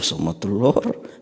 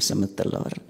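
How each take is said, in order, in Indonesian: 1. Kedengarannya cerah dan gembira. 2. Kedengarannya datar dan kecewa. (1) "oh sama telur" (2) "cuma sama telur"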